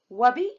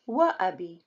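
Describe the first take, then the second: First: The words run together without a glottal stop. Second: A glottal stop separates the two words. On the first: The speaker calls it wrong. "It does not sound right. And it's wrong" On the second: The speaker calls it right. "they should take Hamza"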